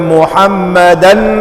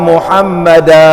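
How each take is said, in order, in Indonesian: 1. Kata itu berakhir dengan bunyi n yang jelas. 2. Kata itu berakhir dengan vokal a yang dipanjangkan. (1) "Muhammadan berhenti" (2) "Muhammada mad iwad"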